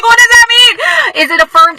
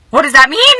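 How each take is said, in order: First: Bewildered squeal, much higher and louder; a wife retelling her stunned reaction in a squeaky voice. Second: Said in the usual way. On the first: Retold or imitated. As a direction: shoot way up high and stretch it out. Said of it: "I'm like". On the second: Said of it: "And I was like".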